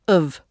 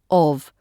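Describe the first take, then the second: First: The vowel is reduced and quickly pronounced. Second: The vowel is full and clearly pronounced.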